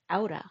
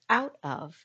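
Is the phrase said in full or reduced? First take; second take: Reduced; Full. First: The words blend into one reduced word. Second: Both words are said fully and separately.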